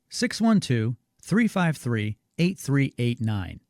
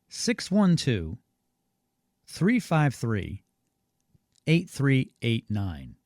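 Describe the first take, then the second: First: The number is said at normal speed. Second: The number is said more slowly.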